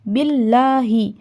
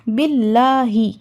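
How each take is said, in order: Both takes have the same delivery.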